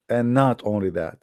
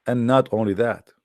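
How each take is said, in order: Both takes have the same delivery.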